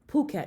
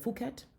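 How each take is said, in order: First: The word begins with a plain P sound. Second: The word begins with an F sound. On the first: The speaker calls it right. "they don't pronounce the H" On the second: The speaker calls it wrong. "instead of"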